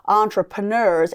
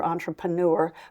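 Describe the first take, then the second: First: The last syllable does not rhyme with manure. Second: The last syllable rhymes with manure. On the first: The speaker calls it right. "that's the way you pronounce that word" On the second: The speaker calls it wrong. "that rhymes with manure and it's not the right way"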